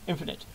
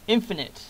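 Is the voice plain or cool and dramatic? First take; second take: cool; plain. First: It is said in a cool voice. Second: It is said in a plain voice.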